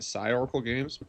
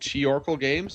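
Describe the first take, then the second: First: The first word begins with an s sound. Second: The first word begins with a k sound.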